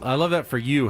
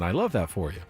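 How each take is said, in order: First: It sounds sincere and supportive. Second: It sounds sarcastic and dismissive.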